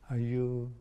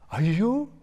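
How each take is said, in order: First: It sounds like a mild, innocent surprise. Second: It sounds like a delightful surprise.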